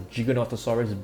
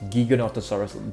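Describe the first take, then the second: First: The start does not sound like 'giga' in gigabyte. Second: The start sounds like 'giga' in gigabyte. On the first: The speaker calls it wrong. "It is actually not known as the Giganotosaurus" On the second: The speaker calls it right. "but Giganotosaurus, just like Gigabyte"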